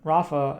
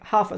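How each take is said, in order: First: The name begins with an R sound. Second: The name begins with an H sound.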